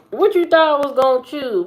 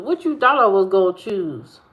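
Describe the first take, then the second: First: Higher, louder and faster jab; mock teasing. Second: Said in the usual way. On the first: Teasing friend about food choice, higher faster mock jab. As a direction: fire it up high and quick to tease.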